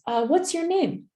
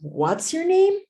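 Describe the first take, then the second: First: The voice falls at the end. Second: The voice rises at the end.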